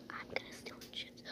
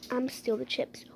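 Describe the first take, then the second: First: Fast, fully whispered scheming; sneaky whisper. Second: Much softer, under the breath; muttered plan. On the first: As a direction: hiss the plan in secret. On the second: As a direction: plot it quietly so no one hears. The dog plots under its breath. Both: Pretend.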